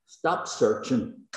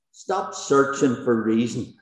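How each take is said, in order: First: Slow, deliberate plea; a slow pastoral command; slow urging. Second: Said in the usual way. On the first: Real, not acted. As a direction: lay each word down slowly. Preacher urging the struggling listener.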